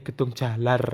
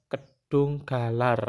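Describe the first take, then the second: First: The second word begins with a J sound. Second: The second word begins with a hard G sound. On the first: It follows the Javanese reading. "Tapi kalau Jawa itu G itu dari J" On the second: It follows the Indonesian spelling. "kalau dibaca dibaca sesuai ejaan bahasa Indonesia namanya Kedung Galar"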